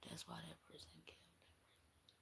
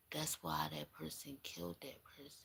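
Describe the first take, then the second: First: Whispered like a secret. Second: Hushed. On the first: Reader confiding the murder motive to the viewer, whispering. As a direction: breathe it out with no voice at all. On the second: Realising the murder motive. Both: Real, not acted.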